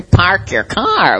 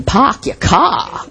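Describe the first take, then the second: First: Park your car with no r, slow and drawn out; Boston accent. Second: Park your car with no r, pahk yah cah, slow; Boston accent. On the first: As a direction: pahk yah cah, slowly. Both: Retold or imitated. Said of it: "In Boston".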